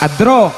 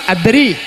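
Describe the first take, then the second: First: The final vowel is a plain open a. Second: The final vowel leans toward an i sound. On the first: This follows one reciter's reading tradition. "Kalau ikut Imam Hafiz adro" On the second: This follows another reciter's reading tradition. "Imam Nafi adri"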